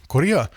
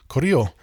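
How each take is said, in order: First: "Korea" said as the familiar modern name, with a falling end. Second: "Koryo" with a rounded "o" ending, set against "Korea"; old kingdom name. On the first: Lecturer linking the modern name to the old kingdom, plain pronunciation. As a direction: give "Korea" in plain English sound. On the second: Lecturer linking the old kingdom name to Korea, careful pronunciation. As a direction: say "Koryo" as the older form. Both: Shown as a demonstration. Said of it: "it's gonna have its name".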